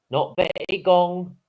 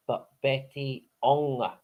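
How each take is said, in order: First: Betty Gong with a hard G sound; wrong pronunciation. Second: Betty Ong said slowly, no G; correct pronunciation. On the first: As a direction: say Gong with a G before ong. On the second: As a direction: draw out Ong with no G sound. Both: Shown as a demonstration.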